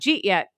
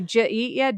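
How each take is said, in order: First: The words are squashed into two syllables. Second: The words are said more fully and separately. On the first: It is a local way of speaking. "there's a lot of smushing that goes on" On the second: It is the common way of speaking. "all of us say"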